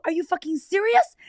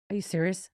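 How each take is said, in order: First: High, loud, incredulous yell; loud outraged scream. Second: Said in the usual way. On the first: Retold or imitated. Screaming back at husband who said go to bed, outraged yelling. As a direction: scream the question in disbelief. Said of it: "I'm about to get loud".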